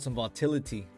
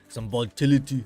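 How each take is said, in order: First: It is said in a plain everyday voice. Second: It is said in an imitated Austrian accent.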